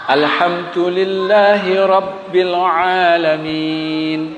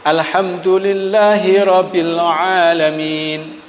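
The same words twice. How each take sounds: First: The b in Rabbil is doubled and pressed. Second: The b in Rabbil is single and light. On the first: The speaker calls it right. "Rabbil itu ada tasdidnya di huruf ba" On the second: The speaker calls it wrong. "dibaca dengan ringan"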